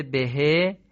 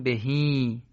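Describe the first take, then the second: First: "بهه" ending on a short e sound; short he as written. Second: "بهی" ending in a drawn-out long ee; lengthened final ee. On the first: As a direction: say "بهه" with a clipped short final e. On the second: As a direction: stretch the end of "بهی" into a long ee. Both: Shown as a demonstration. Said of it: "باید بخونیم بهی".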